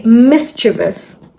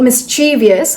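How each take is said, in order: First: Mischievous said as mis-chiv-us; three syllables, mis-chiv-us; correct mischievous. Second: Mischievous said as mis-chee-vee-us; wrong mischievous. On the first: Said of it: "It's actually mischievous". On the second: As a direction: add a vee syllable to mischievous. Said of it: "not mischievous, how it's usually pronounced". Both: Shown as a demonstration.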